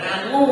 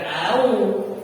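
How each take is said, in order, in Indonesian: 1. Bunyi sengau ng menghubungkan kedua vokal. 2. Kedua vokal menyatu tanpa jeda. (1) "bukan angu" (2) "bukan au"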